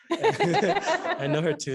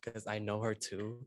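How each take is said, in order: First: High, loud, slow laugh. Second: Said in the usual way. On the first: Real, not acted. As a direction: burst out laughing while saying it. Repeats line laughing.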